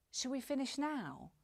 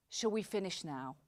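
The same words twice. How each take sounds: First: "Shall we finish now" pitched higher, NOW lifted as a real question; upward, uncertain intonation. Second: "Shall we finish now" with pitch falling to a final NOW; downward final intonation. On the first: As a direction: invite a response, voice up on NOW. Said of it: "a little more uncertainty". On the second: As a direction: make the question a decision, voice dropping through NOW. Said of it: "downward intonation ... sound much more final". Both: Shown as a demonstration.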